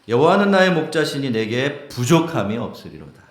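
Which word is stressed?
부족함이. The stress falls on 부족함이.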